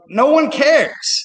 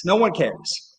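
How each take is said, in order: First: Slow, high and louder no one cares; exasperated stress on one; emphatic. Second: Said in the usual way. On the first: Real, not acted.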